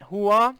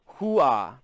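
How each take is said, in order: First: "Hoo-ah" rising, higher and louder; unsure "Hoo-ah", lifted into a question; name said as question. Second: "Hoo-ah" with a falling tune; practising "Hoo-ah", landing low; name said as statement. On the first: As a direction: ask "Hoo-ah" as a check, pitch climbing at the end. Checking the name's pronunciation. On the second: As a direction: say "Hoo-ah" as a settled statement, pitch dropping at the end. Trying out a name's pronunciation. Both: Shown as a demonstration.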